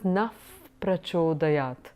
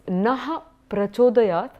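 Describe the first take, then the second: First: The first word ends with an 'f' sound. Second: The first word ends with a 'ha' sound. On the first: "it would tend to be pronounced as naf prachodayat" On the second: "So it's naha prachodayat"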